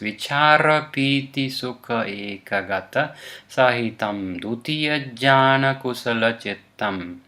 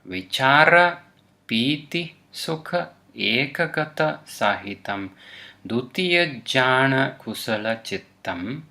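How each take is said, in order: First: The phrase is read at a faster pace. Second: The phrase is read at a slower pace.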